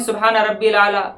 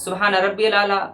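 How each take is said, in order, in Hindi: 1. Rabbi, al के साथ मिलकर एक छोटा rabbil बन जाता है। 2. Rabbi, al के साथ मिलकर एक छोटा rabbil बन जाता है।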